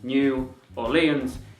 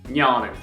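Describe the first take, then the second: First: The name is said as two separate words. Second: The name is run together as one word. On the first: This is not how the locals say it. The speaker calls it wrong. "it's not" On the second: This is how the locals say it. The speaker calls it right. "It's one word, it's like this"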